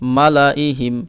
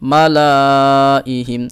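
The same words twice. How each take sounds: First: The middle vowel is kept short. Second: The middle vowel is drawn out long. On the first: The speaker calls it right. "এইভাবে রাখবো, টান দিব না" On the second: The speaker calls it wrong. "এই যে টান দিলাম, এটা কিন্তু পড়ার সময় আমরা এটা রাখবো না"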